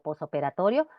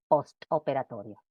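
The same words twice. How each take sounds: First: The t after the s is dropped. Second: The t after the s is pronounced. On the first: The speaker calls it right. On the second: The speaker calls it wrong.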